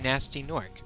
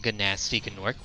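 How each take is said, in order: First: The initial G sound is left silent. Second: The initial G sound is pronounced aloud. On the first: The speaker calls it right. "we say" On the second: The speaker calls it wrong. "We don't say"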